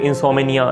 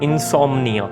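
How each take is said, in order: First: An extra vowel splits the m and n. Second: The m and n join with no vowel. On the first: The speaker calls it wrong. "इसको कुछ लोग इंसोमिनिया इस तरह करके बोल रहे होते हैं" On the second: The speaker calls it right. "तो इंसोम्निया"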